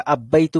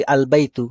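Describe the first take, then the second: First: আব্বাইতু with the l merged into a doubled bb; wrong assimilated form. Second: আল বাইতু with a clear lam before বাইতু; correct al form. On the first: Teacher showing students an odd wrong reading. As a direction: say আব্বাইতু as if ba were a sun letter. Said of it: "খুব odd লাগে না দেখে শুনতে?". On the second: Teacher giving students the proper moon-letter reading. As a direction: say আল বাইতু keeping the l distinct. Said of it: "আব্বাইতু বলতে পারি". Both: Shown as a demonstration.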